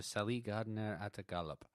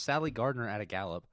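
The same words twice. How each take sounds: First: "Sally" said like "seh-LEE", as if foreign; butchered pronunciation. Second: Said in the usual way. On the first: Real, not acted. Host stumbling through trivia, "Sally Gardner" butchered as foreign-sounding. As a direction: misread "Sally Gardner at a gallop" like foreign words. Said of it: "I know for a fact you butchered that". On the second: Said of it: "it's just Sally Gardner at a gallop".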